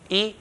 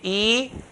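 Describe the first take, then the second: First: The vowel is short. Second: The vowel is stretched long. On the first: The speaker calls it right. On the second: The speaker calls it wrong.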